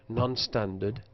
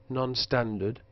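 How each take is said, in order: No difference in how they are said.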